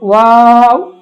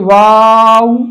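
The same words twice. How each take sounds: First: The final w is only a silent lip rounding. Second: The w sound is voiced fully at both ends. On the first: The speaker calls it right. "दूसरी दफा ... हमने सिर्फ होंठों को गोल करना है" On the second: The speaker calls it wrong. "न कि दो दफा वाव की आवाज निकालनी है ... ये गलत है"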